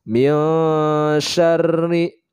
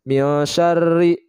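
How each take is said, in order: First: The n is nasalized and held for two beats. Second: The n is plain, without nasal holding. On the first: The speaker calls it right. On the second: The speaker calls it wrong.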